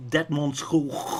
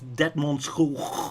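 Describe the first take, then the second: First: It is said with a Dutch pronunciation. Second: It is said with a Dutch pronunciation.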